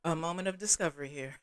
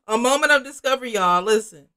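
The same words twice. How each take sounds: First: Said in the usual way. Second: Loud, high, quick announcement; mock revelation. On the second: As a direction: burst out with a big dramatic discovery. Acted repeat announcing a revelation.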